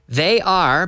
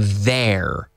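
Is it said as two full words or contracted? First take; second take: full; contracted. First: It is said as two full separate words. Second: It is said as one contracted syllable. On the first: "They are becomes contracted" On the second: "contracted to they're"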